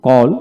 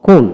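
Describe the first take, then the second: First: কল as a lone word, open "aw" vowel; American কল for learners to copy; American pronunciation drill. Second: কোল as a lone word, rounded "oh"; British কোল for learners to copy; British pronunciation drill. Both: Shown as a demonstration. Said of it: "এইভাবে দুইটা উচ্চারণে পড়াবেন".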